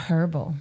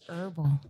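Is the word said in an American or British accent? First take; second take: British; American. First: The word is said with a British accent. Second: The word is said with an American accent. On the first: "And not herbal" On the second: "You know you're with Americans when it's herbal"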